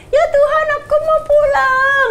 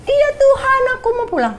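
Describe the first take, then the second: First: Put-on very high, slow childlike plea; like a little child. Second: Put-on very high childlike voice, eager and small; like a little child. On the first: Repeating to God that she wants home, high childlike and slow. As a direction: say it like a small child begging to go home. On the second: Answering God's call home in a high little-child voice. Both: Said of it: "Kayak anak kecil".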